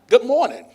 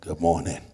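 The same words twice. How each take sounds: First: It is said with lively, high energy. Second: It is said with low, dragging energy. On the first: The speaker is eager and ready to go. "he's all hyped up and he's perping, percolating, he's all ready to go" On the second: Something seems wrong with the speaker. "Something wrong with this dude. he drugged through the door"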